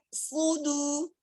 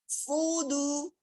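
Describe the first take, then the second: The two takes are said the same way.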